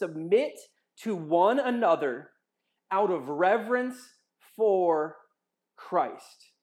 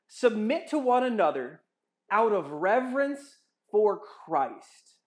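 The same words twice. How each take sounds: First: It is read very slowly. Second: It is read at a normal speed.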